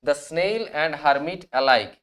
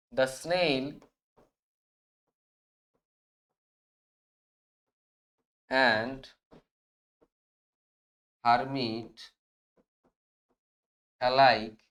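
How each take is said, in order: First: Said in the usual way. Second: Word by word with long pauses; slow dictation. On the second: Shown as a demonstration. Teacher dictating the answer to students, slow word by word. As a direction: spell out each word slowly so students can write it. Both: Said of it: "তাহলে আমরা এটা কিভাবে লিখবো?".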